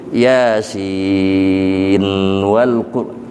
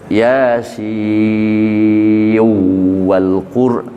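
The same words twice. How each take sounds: First: The n of Yasin is clearly pronounced. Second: The n of Yasin merges into the w. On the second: "Kalau idgham"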